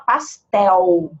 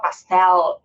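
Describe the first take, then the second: First: The final L sounds like a U vowel. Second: The final L is a real L consonant. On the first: "a gente fala pastel, U" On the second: "que nem o, o português de Portugal"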